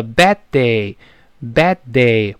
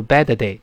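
First: "bad day" with the first d held, not released; unreleased d. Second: "bad day" as "ba-duh-day"; wrongly released d. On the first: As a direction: hold the stop between "bad" and "day". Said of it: "那个的当然失去爆破". (bad day 失去爆破) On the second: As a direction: add a vowel after the d in "bad day". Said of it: "不要读bad day". (错读：bad day 中间多加“的”音) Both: Shown as a demonstration.

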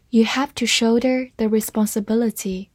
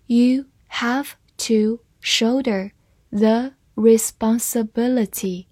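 First: Said in the usual way. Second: Slowly, word by word, with gaps between; measured, careful model reading for learners. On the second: Shown as a demonstration. Teacher models the sentence for learners to follow, slow reading. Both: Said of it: "慢慢来读".

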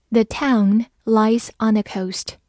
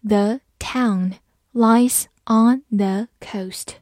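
First: Said in the usual way. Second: "The town lies on the coast" slowly, word by word; slow reading. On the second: Shown as a demonstration. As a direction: separate each word with a small pause. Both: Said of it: "慢慢来读".

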